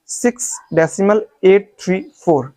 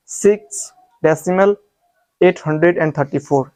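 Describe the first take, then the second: First: एट, three, four as separate digits; correct reading demo. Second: एट hundred एंड thirty four as one number; wrong reading demo. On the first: Teacher reading in English, digit-by-digit demonstration. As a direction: give एट three four a beat each. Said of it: "तो आप ऐसे पढ़ोगे". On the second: Teacher warning students off, demonstrated wrong reading. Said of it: "आप इस तरीके से मत पढ़ना". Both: Shown as a demonstration.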